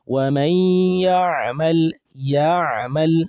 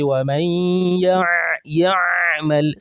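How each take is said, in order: First: وَمَنْ يَعْمَلْ with a light, natural Ain; simple recitation. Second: يَعْمَلْ with the Ain forced and overdone; exaggerated Ain. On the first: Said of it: "That's enough". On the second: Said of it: "You don't need to say". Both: Shown as a demonstration.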